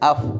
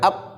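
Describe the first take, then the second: First: The final sound flows out with breath. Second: The final sound is closed off by the lips. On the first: The speaker calls it right. "kalau ke sukun di fa harus af" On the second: The speaker calls it wrong. "jangan ap, jangan tertutup ya"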